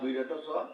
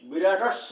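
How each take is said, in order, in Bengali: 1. s বাদ পড়ে যায় এবং 'cha' আলাদা থাকে। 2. একটি s ধ্বনি শব্দটিকে 'cha'-র সঙ্গে যুক্ত করে। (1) "আমরা বিরাট চ" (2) "বিরাটস্ব না বলে"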